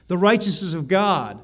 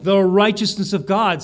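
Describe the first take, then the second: First: Said in the usual way. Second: The righteousness of God, a touch louder, weight on The and righteousness; emphasis on righteousness. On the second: Shown as a demonstration. Preacher showing the congregation the verse's emphasis, louder. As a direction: punch the phrase The righteousness of God. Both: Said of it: "see the emphasis".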